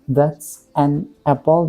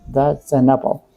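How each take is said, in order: First: Each word is said separately with small breaks. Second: The words run together in one smooth flow. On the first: The speaker calls it wrong. "We shouldn't say that's an apple. That's wrong" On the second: The speaker calls it right. "we should say that's an apple"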